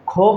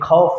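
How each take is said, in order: First: The first consonant is a plain aspirated k. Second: The first consonant is a raspy throat sound. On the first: The speaker calls it wrong. "इसको हम खौफ नहीं पढ़ेंगे" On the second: The speaker calls it right. "खौफ पढ़ेंगे"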